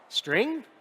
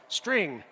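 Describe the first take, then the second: First: The voice rises at the end, like a question. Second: The voice falls at the end, like a statement. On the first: The value may be a string or may be null. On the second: The value is always a string and cannot be null.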